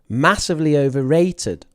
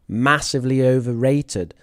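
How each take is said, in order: First: Overrated is stressed on its syllable 'ra'. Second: Overrated is stressed on its first syllable 'o'. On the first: The speaker calls it right. "The word stress is actually a" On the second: The speaker calls it wrong. "a, o, ... I got the word stress wrong"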